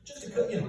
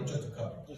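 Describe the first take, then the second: First: Said in the usual way. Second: Breathy whispered "just a couple"; whispered aside. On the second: Shown as a demonstration. Comedian mutters "just a couple" to himself, whispered. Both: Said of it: "Oh, just a couple".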